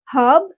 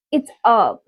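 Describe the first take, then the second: First: Said in the usual way. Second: "herb" with silent h; American pronunciation. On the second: Shown as a demonstration. Teacher corrects one of twenty words, American pronunciation. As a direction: drop the h in "herb", start on the vowel. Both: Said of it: "twenty words in American accent".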